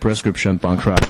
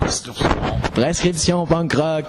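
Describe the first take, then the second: First: It is said with an English accent. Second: It is said with a Quebec French accent. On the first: "you can do it French and English" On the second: "That Quebec French accent"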